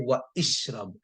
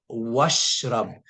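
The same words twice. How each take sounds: First: An extra i vowel comes before shrab. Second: It runs straight from wa into shrab. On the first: The speaker calls it wrong. "It's wrong to say" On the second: The speaker calls it right. "I would say"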